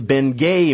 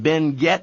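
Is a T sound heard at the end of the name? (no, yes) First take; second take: no; yes. First: The name ends without a T sound. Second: The name ends with a clear T sound. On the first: The speaker calls it wrong. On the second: The speaker calls it right. "in Spanish you pronounce the T. It is Ben Gett Mining"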